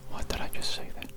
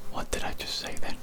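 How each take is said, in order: Both takes have the same delivery.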